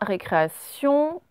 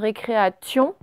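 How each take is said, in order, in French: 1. Le t se prononce comme un son s. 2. Le t se prononce comme un son t. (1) "on entend bien le se" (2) "On ne dit pas une récréation"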